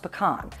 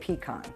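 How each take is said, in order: First: It is said with the Southern pronunciation. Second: It is said with the Midwestern pronunciation. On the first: "In the South, it's pronounced pecan" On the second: "my Midwestern roots force me to say pecan"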